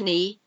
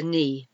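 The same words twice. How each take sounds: First: Knee with a sounded K, k-nee; wrong k-nee. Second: Knee with a silent K, just nee; correct knee. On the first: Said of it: "It's not a knee". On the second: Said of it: "it's a knee". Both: Shown as a demonstration.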